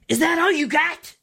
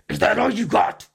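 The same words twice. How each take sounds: First: It is said in a plain, clear voice. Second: It is said in a rough, raspy voice.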